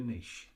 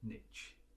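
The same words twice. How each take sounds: First: It is said with a British pronunciation. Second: It is said with an American pronunciation.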